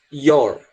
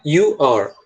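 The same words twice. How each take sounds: First: "Your" with a closed vowel. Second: "You are" spoken clearly as two words; you are demo. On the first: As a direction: say "Your" with a tighter, closed sound. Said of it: "Até o som fica mais fechado". ("Your" com o som mais fechado) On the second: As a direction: model "You are" for the students. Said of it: "You are pra agora your". (demonstração de "You are") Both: Shown as a demonstration.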